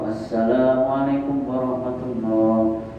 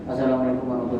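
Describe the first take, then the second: First: It is quick, but the long vowels stay full length. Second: It is rushed, with the long vowels clipped short. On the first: The speaker calls it right. "tapi tetap matobi'inya ke bawah" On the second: The speaker calls it wrong. "Karena buru-buru misalnya ... ini enggak"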